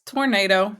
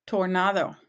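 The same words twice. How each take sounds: First: Tornado with an English ay, tor-NAY-doh; tornado pronounced as in English. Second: Tornado with a Spanish ah, tor-NAH-tho; Tornado pronounced as in Spanish. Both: Shown as a demonstration. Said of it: "just pronounced differently".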